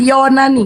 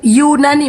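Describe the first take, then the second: First: The first vowel sounds like 'o'. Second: The first vowel sounds like 'u'. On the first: The speaker calls it wrong. "bukan Yonani" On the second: The speaker calls it right. "Yunani, bukan Yonani"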